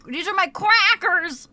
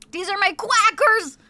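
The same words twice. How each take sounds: First: Louder, playful presenting voice; playful showing off. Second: Higher, louder silly cartoon voice on quackers. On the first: Pretend. Streamer presenting her crackers to chat, playful. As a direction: show them off proudly. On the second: Streamer joking about her crackers, silly high cartoon voice. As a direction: pun it like a cartoon duck.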